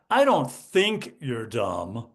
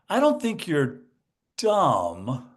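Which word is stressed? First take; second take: think; dumb. First: The stress falls on the word think. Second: The stress falls on the word dumb. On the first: You are actually considered an idiot. "you think I'm an idiot" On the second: Something else is wrong with you. "I'm not dumb, there's something else wrong with me"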